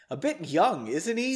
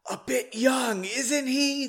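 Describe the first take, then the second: First: Said in the usual way. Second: High, airy stage whisper; hushed but projected whisper. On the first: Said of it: "I didn't do that in a whisper". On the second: A narrator's reading. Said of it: "the general whispered to Margot".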